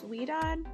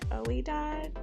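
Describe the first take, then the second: First: The name begins with a 'wee' sound. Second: The name begins with an 'oh' sound. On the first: The speaker calls it right. "but I think it's Weedad" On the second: The speaker calls it wrong. "this was the first time I ever tried to pronounce it"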